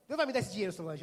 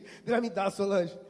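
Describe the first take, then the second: First: Said in the usual way. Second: Insistent. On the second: Retold or imitated. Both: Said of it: "Eu tava daquele jeito".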